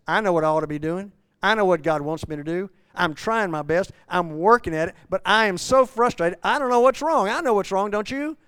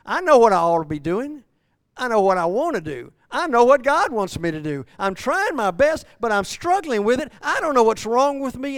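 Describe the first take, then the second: First: Loud, quick, pleading confession; frustrated Paul. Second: Loud, high, straining confession; anguished Paul. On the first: Preacher voicing Paul again, frustrated and building. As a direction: push it out fast, building to a plea. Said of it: "Paul says". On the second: Preacher voicing Paul's struggle, loud and anguished. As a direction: cry out Paul's frustration. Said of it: "Paul is saying". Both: Acted.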